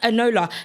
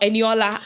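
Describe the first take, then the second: First: The name is said with three syllables. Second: The name is said with four syllables. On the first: The speaker calls it wrong. "her name's not Enola" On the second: The speaker calls it right. "Her name is Eniola"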